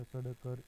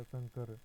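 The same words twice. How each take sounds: First: सड़कर with a separate hard ḍ before kar; spelled-out nasal form. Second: Said in the usual way. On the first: Shown as a demonstration. Teacher showing the sandhi of sam plus kar, spelled-out सड़कर. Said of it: "पूर्व वाले व्यंजन के ऊपर अनुस्वार". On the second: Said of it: "अनुस्वार लगाकर लिखा".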